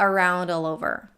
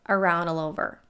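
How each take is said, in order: Both takes have the same delivery.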